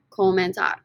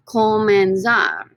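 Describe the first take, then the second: First: Said in the usual way. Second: Comenzar drawn out slowly and firmly, every syllable clear; slow model pronunciation. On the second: Shown as a demonstration. Teacher models Comenzar slowly for students to repeat. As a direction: say Comenzar slowly for the class to copy.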